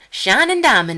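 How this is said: It is said in a put-on Southern accent.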